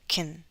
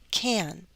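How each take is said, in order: First: The vowel is reduced, sounding like kin. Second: The vowel is full and held into the N. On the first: "in fast speech, the affirmative is going to reduce and it will sound more like kin" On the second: "take the time to say the word very clearly"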